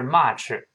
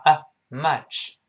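First: "much" with a wide open ah and heavy ch ending; much, mispronounced. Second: Short relaxed uh, then "much" with that vowel. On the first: Teacher shows what not to say, open ah in "much". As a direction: say "much" wrongly as "mah-chih". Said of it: "不是much". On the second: Teacher corrects the vowel, short relaxed uh in "much". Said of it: "而是发啊". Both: Shown as a demonstration.

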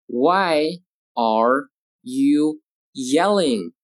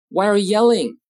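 First: Very slow, each word stretched and separate; slow model reading. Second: Said in the usual way. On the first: Shown as a demonstration. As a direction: read it word by word for learners. Teacher models question word by word.

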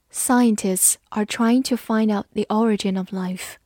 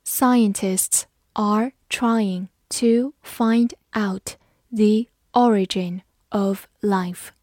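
First: Said in the usual way. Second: Slowly, word by word with gaps; measured, separated words, teacher modelling; slow read-along. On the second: Shown as a demonstration. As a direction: read it slowly for learners to repeat. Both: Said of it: "跟着我慢读一遍".

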